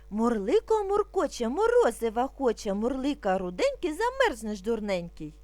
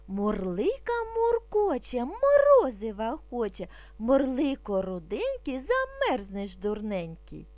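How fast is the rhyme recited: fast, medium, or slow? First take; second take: medium; slow. First: It is recited at a slightly quicker pace. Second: It is recited calmly and slowly. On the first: "А тепер трошки швидше" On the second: "Спочатку будемо вимовляти спокійно, не спіша"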